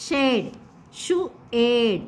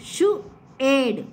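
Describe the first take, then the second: First: "షు, ఏడ్" stretched slowly, each sound held apart. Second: Said in the usual way. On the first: Shown as a demonstration. Teacher to children, sounding out "షు, ఏడ్" very slowly. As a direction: drag out "షు" and "ఏడ్" slowly for the class. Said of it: "teacher repeats sounds slowly". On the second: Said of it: "teacher repeats sounds".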